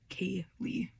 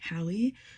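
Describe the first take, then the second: First: The first syllable sounds like 'kay'. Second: The first syllable sounds like 'cal'. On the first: The speaker calls it right. "but it is Kaylee" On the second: The speaker calls it wrong. "a lot of people pronounce it as Callie because of the way it's spelled"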